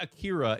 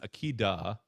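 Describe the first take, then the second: First: The middle consonant sounds like an English r. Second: The middle consonant sounds like a quick d. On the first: The speaker calls it wrong. "it's not Akira" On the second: The speaker calls it right. "It's Akida. Uh, is how they pronounce it"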